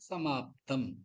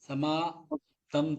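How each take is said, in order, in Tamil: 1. ஒலித்தொகுதி சேர்ந்து சொல்லப்படுகிறது, அதில் அழுத்தம் உண்டு. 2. அசைகள் தனித்தனியாக, இடைவெளியுடன் சொல்லப்படுகின்றன. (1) "சமாப்தம் அப்படின்னு சொல்லுவோம்" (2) "தனியா சொல்லக்கூடாது"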